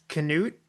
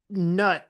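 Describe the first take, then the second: First: The K is sounded with a vowel after it. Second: The K is silent and it is one syllable. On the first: "pronounced as canute" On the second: "pronounce nut without the K"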